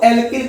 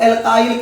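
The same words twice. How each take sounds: First: एल्किल ending in a short "kil"; एल्किल with short i, not "eye"; short-i pronunciation. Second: एल्काइल ending in "kile"; एल्काइल with an "eye" vowel in the last syllable; long-eye pronunciation. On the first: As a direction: say एल्किल as "el-kil", rhyming with "hill". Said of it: "कुछ लोग इसको बाबू एल्किल कहते हैं". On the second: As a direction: say एल्काइल as "el-kile", rhyming with "mile". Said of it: "कुछ लोग एल्काइल कहते हैं". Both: Shown as a demonstration.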